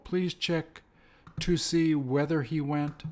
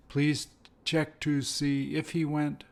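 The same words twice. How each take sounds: First: "please" drawn out slowly; slow model sentence. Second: Slow, even repeat with "if"; slow model sentence. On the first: Teacher repeating the pattern slowly for learners. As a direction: lay the sentence down word by word. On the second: Teacher giving the matching variant slowly. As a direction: read it out carefully. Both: Shown as a demonstration. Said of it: "They're the same".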